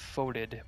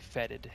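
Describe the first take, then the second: First: The first vowel sounds like 'oh'. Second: The first vowel sounds like 'eh'. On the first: The speaker calls it wrong. "we see this foeded" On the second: The speaker calls it right. "but it's actually fetid"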